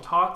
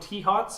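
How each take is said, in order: First: It starts with a plain t sound. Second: It starts with a spelled-out T, then 'hots'. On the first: "and then I called them tots" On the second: "I called them T-hots"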